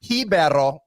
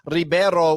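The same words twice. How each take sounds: First: The word starts with an H sound. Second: The word starts with an R sound. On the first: This is the Brazilian pronunciation. "the H pronunciation at the beginning of the word" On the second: This is the Portuguese pronunciation. "we're talking Portuguese at that point"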